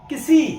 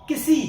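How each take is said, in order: No difference in how they are said.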